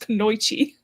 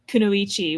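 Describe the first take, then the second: First: The word is said the anglicized way. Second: The word is said the Japanese way. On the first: The speaker calls it wrong. "more than one person has pronounced it as Kunoichi" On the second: The speaker calls it right. "the word Kunoichi"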